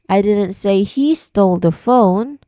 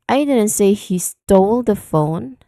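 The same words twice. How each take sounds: First: The word he is stressed. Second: The word stole is stressed. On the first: Someone other than him may have taken it. "Now here I put stress on the word he" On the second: The act of stealing is what is in question. "put the stress on the word stole"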